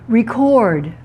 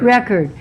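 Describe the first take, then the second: First: "Record" stressed on the second syllable; "Record" as a verb, end-stressed. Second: "Record" stressed on the first syllable; "Record" as a noun, weak second syllable. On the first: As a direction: say "Record" as rih-CORD. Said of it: "Here's the verb". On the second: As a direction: say "Record" as REC-erd. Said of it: "What's the noun?". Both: Shown as a demonstration.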